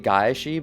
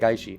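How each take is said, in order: First: The word is said slowly with every sound. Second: The word is said quickly with sounds merged. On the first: This is the technically correct form. "Technically it'd be Gaishi" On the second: This is how people say it in practice. "saying it fast"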